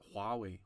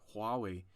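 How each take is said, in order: First: The initial H sound is clearly pronounced. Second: The same.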